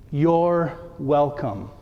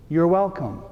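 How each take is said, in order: First: Each word given weight, "You're welcome." slow and low; solemn penance phrase; slow deliberate. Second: Said in the usual way. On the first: Shown as a demonstration. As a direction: say "You're welcome." slowly, like handing over a gift. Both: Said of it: "here's the penance".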